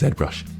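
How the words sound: The name is said the British way. "but to British it is ZBrush"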